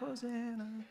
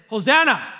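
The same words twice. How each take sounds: First: It is said in a mild, casual way. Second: It is said as an insistent demand.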